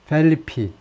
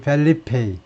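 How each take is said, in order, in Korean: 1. 이름은 약한 'ee' 모음으로 끝납니다. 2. 이름은 완전한 'ay' 모음으로 끝납니다. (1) "일부 사람들은 영어식 발음으로 ... 펠리피 좀 약한 모음" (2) "킹 펠리페이 스페인식으로요"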